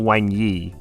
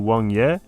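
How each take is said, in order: First: The name ends with an 'ee'-like vowel. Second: The name ends with an 'eh'-like vowel. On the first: The speaker calls it wrong. "and not Wang Yi" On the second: The speaker calls it right. "his name's actually Wang Ye"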